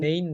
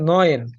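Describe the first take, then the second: First: The vowel sounds like 'ay' as in 'rain'. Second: The vowel sounds like 'oy' as in 'boy'. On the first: The speaker calls it wrong. "নেইন না" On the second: The speaker calls it right. "এটা হচ্ছে নয়েন"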